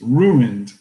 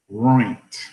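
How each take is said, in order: First: It is said fully as 'ruined'. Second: It is squeezed into a short 'roint' sound. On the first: The speaker calls it right. "it's ruined" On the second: The speaker calls it wrong. "It's not roint"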